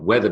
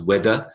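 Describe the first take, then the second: First: The middle consonant is a th sound. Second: The middle consonant is a d sound. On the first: The speaker calls it right. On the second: The speaker calls it wrong.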